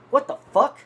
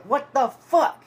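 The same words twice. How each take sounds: First: High, loud mock disbelief; retold startled exclamation. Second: Slow, high, loud mock yell; imitated angry holler. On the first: Teller seeing what fell from the jacket, acting out his surprise. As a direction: burst out in retold shock. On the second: Man forty yards away with arms up, imitated hollering angrily. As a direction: stretch it out like calling across a distance.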